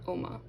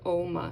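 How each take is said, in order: First: The first O vowel is kept short. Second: The first O vowel is held long. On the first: The speaker calls it wrong. "not Oma" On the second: The speaker calls it right. "it is technically it is an extended vowel. It would be it's you know Oma"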